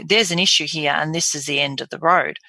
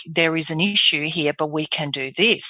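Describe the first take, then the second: First: Grave, final delivery; scary. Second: Reassuring, constructive delivery; positive. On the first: Doctor giving a patient difficult news, scary. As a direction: deliver bad news as a dead end. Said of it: "it can sound very scary". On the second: Doctor giving a patient difficult news, positive. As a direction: give bad news with hope. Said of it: "it can sound very positive". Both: Shown as a demonstration.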